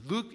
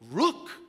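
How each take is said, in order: First: It has native English pronunciation. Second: It has a child's Korean-accented pronunciation. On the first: "look 이렇게 하지 않고" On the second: "한국 아이이기 때문에 이게 발음이 좀 안 되는 것 같아요"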